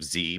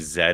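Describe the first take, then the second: First: The letter is said the American way, as zee. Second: The letter is said the British way, as zed.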